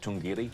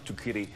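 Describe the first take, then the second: First: The middle of the name has an ng sound. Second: The middle of the name has a k sound. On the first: The speaker calls it right. "That's the actual correct pronunciation" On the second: The speaker calls it wrong. "But we don't. We never do"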